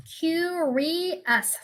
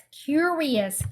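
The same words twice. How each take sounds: First: "Curious" drawn out in three beats, cu-ri-ous; syllable by syllable. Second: Said in the usual way. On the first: Shown as a demonstration. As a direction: count out "Curious" slowly, one syllable at a time. ("Curious"를 세 음절로 천천히 끊어서) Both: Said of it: "삼음절이죠".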